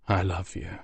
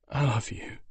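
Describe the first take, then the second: First: Tender, much softer; hushed, lingering farewell; very softly. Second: Choked, much softer; the words barely get out; broken. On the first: Father saying farewell to his son, very soft. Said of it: "he said, very softly". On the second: Griffin son telling his father goodbye, broken. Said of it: "a broken". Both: Acted.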